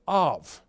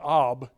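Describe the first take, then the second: First: The word ends with a v sound. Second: The word ends with a b sound. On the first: The speaker calls it right. "but Av" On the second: The speaker calls it wrong. "They wouldn't say Ab"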